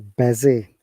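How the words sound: It is said in a Scottish accent. "Scottish people say busy"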